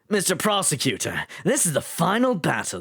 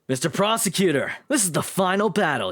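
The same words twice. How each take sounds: First: It is spoken in a put-on British accent. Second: It is spoken without a British accent. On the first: "I make him British" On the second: "And then just take out the British"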